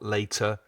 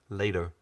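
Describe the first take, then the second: First: The T is pronounced as a crisp, hard sound. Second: The T is pronounced as a soft, light sound. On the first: The speaker calls it wrong. "not later" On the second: The speaker calls it right. "Notice that soft T"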